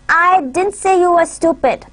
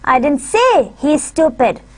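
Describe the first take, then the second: First: The stress is on the word I. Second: The stress is on the word say. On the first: "in the first sentence we would put our emphasis on I" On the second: "I would uh, put my stress on say"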